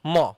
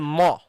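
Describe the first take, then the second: First: The syllable sounds thick and heavy. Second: The same.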